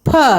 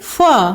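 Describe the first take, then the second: First: The sound is made by pressing both lips together. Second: The sound is made with lower lip touching teeth. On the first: "बिना बिंदी को फ बोलते हैं तो दोनों होठों को चिपका कर बोलते हैं" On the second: "बिंदी फ के नीचे लगाते हैं तो नीचे का होठ दांत में टच होता है"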